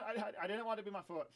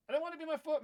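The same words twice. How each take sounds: First: Said in the usual way. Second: Put-on high, whiny, childish whine of the line; whiny complaint. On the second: Kid whining to viewers that it's his foot, high and whiny. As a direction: whine it like a kid who won't accept it.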